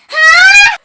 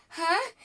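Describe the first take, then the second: First: Piercing high, very loud shriek; imitated waking scream. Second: High, confused waking grunt; groggy startled huh. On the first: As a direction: scream it like a startled sleeper. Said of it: "Wait, stop screaming". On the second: Retold or imitated. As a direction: imitate someone waking up confused. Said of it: "Do you know she woke up".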